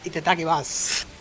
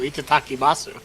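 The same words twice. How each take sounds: First: The final u sound is dropped. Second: The final u sound is clearly pronounced. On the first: The speaker calls it right. "the U is silent at the end of Masu" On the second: The speaker calls it wrong. "piss people off"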